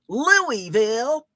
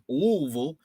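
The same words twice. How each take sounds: First: Every vowel of the word is sounded out. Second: The word is squeezed with very few vowels. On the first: The speaker sounds like an outsider from the North. The speaker calls it wrong. "I say "Louisville" like a damn Yankee" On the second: The speaker sounds like a local. The speaker calls it right. "the proper pronunciation is "Louisville." You just say it with as few, uh, vowels as po"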